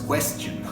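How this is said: It is pronounced like the English word. The speaker calls it wrong. "No se vayan a confundir con el inglés, no es question"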